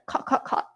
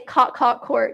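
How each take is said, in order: First: It is said in a Singapore accent. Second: It is said in a US accent.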